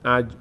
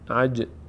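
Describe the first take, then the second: First: The final j stops flat with no echo. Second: The final j bounces with an echoing release. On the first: The speaker calls it wrong. "عج نمیگیم" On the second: The speaker calls it right. "در هنگام ساکن بودن در مخرج خود میلرزند"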